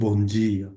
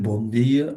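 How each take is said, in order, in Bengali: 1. dia-তে d শব্দটি j-এর মতো শোনায়। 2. dia-তে d শব্দটি d-এর মতো শোনায়। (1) "ওরা বলবে হচ্ছে বন জিয়া" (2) "আমরা যদি বলি"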